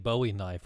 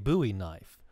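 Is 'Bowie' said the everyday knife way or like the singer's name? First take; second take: singer's name; knife way. First: Bowie is pronounced like the singer's surname. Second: Bowie has the usual knife-name pronunciation. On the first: It names a knife themed on the singer. "but I would like to make a Bowie knife" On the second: It names the ordinary hunting knife. "usually it's it's pronounced a Bowie knife"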